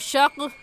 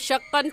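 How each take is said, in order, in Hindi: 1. शब्द 'k' पर रुकता है, उसके बाद कोई स्वर नहीं। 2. शब्द 'an' अक्षर पर खत्म होता है। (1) "ऐसे नहीं रुकेंगे" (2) "ऐसे नहीं रुकेंगे"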